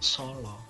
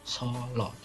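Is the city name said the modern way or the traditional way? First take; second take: traditional; traditional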